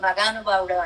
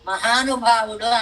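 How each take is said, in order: First: The second consonant is a g sound. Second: The second consonant is an h sound. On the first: "మగానుభావుడు మగానుభావుడు అంటుంటారు" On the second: "మహానుభావుడు అనాలనుకోండి సంస్కృతం"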